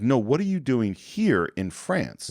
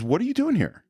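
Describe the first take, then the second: First: Slow down and lean on "here" to narrow the question; insistent retold question. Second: Acted-out question, pitched high on "doing here"; retold question. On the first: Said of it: "It's like". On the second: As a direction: lift "What are you doing here?" high, as retold dialogue. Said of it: "the next thing he asks is".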